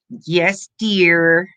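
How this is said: It is said in a grudging, annoying tone. The agreement is meant to irritate. The speaker calls it wrong. "He does it to be annoying"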